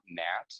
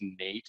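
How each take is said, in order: First: The vowel is a short A sound. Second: The vowel is a long A sound. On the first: The speaker calls it wrong. "and not nat" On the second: The speaker calls it right. "we know that it's nate"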